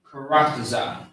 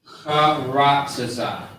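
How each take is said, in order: First: Said in the usual way. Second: Slow syllable by syllable. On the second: Shown as a demonstration. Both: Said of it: "So the word is".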